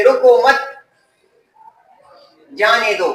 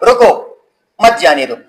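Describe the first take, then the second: First: "رکو مت" held together, long pause, then "جانے دو"; pause after مت. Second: "رکو" alone, a stop, then "مت جانے دو" together; pause after رکو. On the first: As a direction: break after مت, before "جانے دو". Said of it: "دې رکو مت پسې کامه وه". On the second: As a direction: break right after رکو. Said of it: "ده په رکو پسې کامه ولګوله". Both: Shown as a demonstration.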